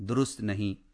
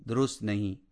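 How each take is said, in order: No difference in how they are said.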